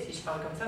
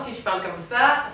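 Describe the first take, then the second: First: Lower, much softer, no smile; toned-down, smile-free speaking demo; unsmiling voice. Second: Talking with lips spread in a smile; smiling voice. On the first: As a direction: drop the smile out of the voice. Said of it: "je ne souris plus". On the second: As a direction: speak through a wide smile. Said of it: "ça va s'entendre". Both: Shown as a demonstration.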